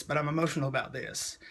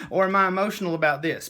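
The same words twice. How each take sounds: First: Softer and sincere, falling at the end; mean it quietly this time; a real touch of emotion; sincere, emotional. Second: Quick question broken by a laugh, a bit louder; giggly mock wondering; laughing self-question. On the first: Real, not acted. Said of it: "it makes me emotional right now". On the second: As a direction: laugh it off as you ask. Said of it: "And I'm like".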